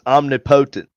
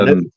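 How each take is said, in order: First: The word is said in a Southern way. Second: The word is said in a standard way.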